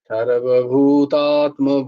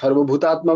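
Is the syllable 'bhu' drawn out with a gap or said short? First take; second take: drawn out; short. First: The 'bhu' is lengthened with a small gap after. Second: The 'bhu' is short with no gap after it. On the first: The speaker calls it right. "ভূয়ের পর একটুখানি gap দিচ্ছি" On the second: The speaker calls it wrong. "সর্বভূতাত্মা বলছি না আমি"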